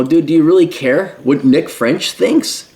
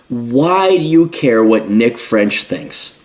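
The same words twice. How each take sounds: First: Said in the usual way. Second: Slow, weighty repeat of the question; deadly serious. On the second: Real, not acted. Commentator pressing the viewer, slow and serious. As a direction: lean on "you" and slow right down. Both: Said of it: "I'm being deadly serious".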